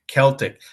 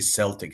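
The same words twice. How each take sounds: First: The word begins with a hard K sound. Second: The word begins with a soft S sound. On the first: The speaker calls it right. "It should be a hard C" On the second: The speaker calls it wrong. "Americans always say Celtic. This is incorrect"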